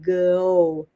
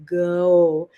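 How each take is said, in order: Both takes have the same delivery.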